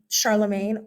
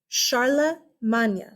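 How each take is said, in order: First: The name is pronounced the English way. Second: The name is pronounced the French way. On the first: "Just know that it's not right" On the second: "it's Old French"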